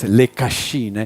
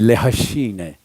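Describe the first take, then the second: First: Cascine starts with a hard K sound. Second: Cascine starts with a breathy H sound.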